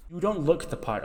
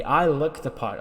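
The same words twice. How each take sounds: First: "don't" pitched high, then falling; high, dismissive stress on "don't". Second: "I" punched higher, then falling; self-important emphasis on "I"; stress on I. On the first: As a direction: lean on "don't" as a put-down. Contrasts other's look with own. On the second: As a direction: hit "I" hard to contrast yourself. Contrasts own look with other's. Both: Retold or imitated.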